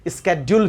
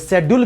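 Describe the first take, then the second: First: The word begins with a 'sk' sound. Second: The word begins with a 'sh' sound. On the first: "स्केड्यूल भी सही है" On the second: "यह शेड्यूल भी सही है"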